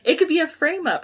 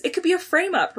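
First: Bright, eager reread of Ron's line; excited reading. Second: Said in the usual way. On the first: Retold or imitated. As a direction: say it like Ron's got a hunch. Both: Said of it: "Ron exclaimed excitedly".

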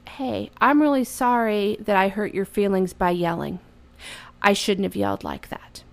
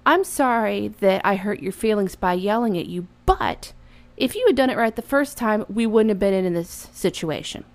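First: Plain, sincere owning of the mistake; sincere apology. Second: Apologize, then pin it on him; blaming apology. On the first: Mother apologizing to her son for yelling, sincere. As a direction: apologize simply, nothing held back. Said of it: "What I should say is". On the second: Mother apologizing to her son but blaming him. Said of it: "What I should not say is". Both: Shown as a demonstration.

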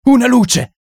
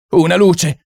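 First: The panic climbs; higher shriek. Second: Frantic high shout; shrieking for light. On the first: Someone in the dark room shrieks for a light, even higher. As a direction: shout it even higher and more desperate. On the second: Someone in the dark room shrieks for a light, frantic. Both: Acted. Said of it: "strillò qualcuno".

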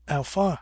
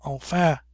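First: A bitter, scoffing "Enfin"; bitter laugh. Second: A light laughing "Enfin". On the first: The Pretender, bitter at his defeat, scoffs. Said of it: "says he with a bitter laugh". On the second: Harry mimics the Pretender's word, laughing. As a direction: toss off "Enfin" with a mocking laugh. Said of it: "quoth Harry with a laugh". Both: A narrator's reading.

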